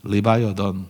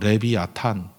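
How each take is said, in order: First: It sounds like li-vai-uh-thun, with English vowels. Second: It sounds like le-bi-a-tan, without English vowels. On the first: The speaker calls it wrong. "영어식 발음" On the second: The speaker calls it right. "발음 그대로 하면"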